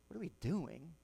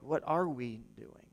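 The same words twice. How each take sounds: First: Soft "what are we doing" with "doing" swooping up in disbelief; wrong emphasis, bewildered. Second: "what are we doing" measured, ARE stressed, falling at the end; right emphasis. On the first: Preacher showing the church how not to ask it, softly incredulous. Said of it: "And not like". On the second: Preacher showing the church the intended question, earnest stress on ARE. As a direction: weigh "what are we doing" evenly, leaning on ARE. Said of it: "the emphasis on the right syllable". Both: Shown as a demonstration.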